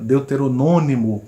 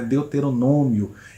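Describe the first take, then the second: First: The word ends with an extra syllable, 'nônimo'. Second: The word ends with the shorter ending 'nômio'. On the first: The speaker calls it wrong. "palavras erradas que as pessoas pronunciam" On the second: The speaker calls it right. "o correto é"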